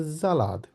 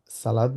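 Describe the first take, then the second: First: জালাদ with a voiced z at the start; teacher modelling জালাদ with a z sound; German S as Z. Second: সালাদ with a plain English s; contrasting the wrong সালাদ with an s; wrong s pronunciation. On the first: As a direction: say জালাদ, z not s. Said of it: "এস কে জেড এর মতো উচ্চারণ করি". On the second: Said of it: "সালাদ না বলে". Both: Shown as a demonstration.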